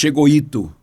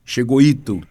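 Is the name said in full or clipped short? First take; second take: clipped; clipped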